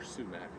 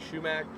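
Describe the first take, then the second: First: The word begins with an s sound. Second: The word begins with a sh sound. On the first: This is how the spelling suggests it is said. "it actually sounds like it should be more sumac" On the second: This is how people in the speaker's area say it. "we always called it shumac"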